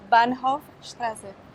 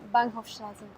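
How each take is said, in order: First: It is said a little more slowly. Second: It is said at normal speed.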